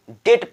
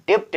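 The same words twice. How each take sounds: First: डेट with only the t at the end; silent B. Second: डेप्ट with a p/b before the t; B sounded. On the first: Teacher recapping the right reading, silent b in डेट. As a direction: drop the b, say डेट. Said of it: "के डेट पढ़ा". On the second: Teacher recapping the misreading, b sounded in डेप्ट. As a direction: sound the middle consonant in डेप्ट. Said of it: "डेप्ट ना पढ़ के". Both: Shown as a demonstration.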